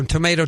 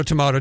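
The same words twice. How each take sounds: First: Tomato said as to-MAY-to; long A variant. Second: Tomato said as to-MAH-to; broad A variant. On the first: Host waves off the pronunciation question, tomato as to-MAY-to. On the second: Host waves off the pronunciation question, tomato as to-MAH-to. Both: Shown as a demonstration. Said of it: "tomato, doesn't matter".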